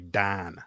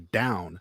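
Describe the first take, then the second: First: The vowel is flattened, sounding like 'Dan'. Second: The vowel is a standard 'ow' sound.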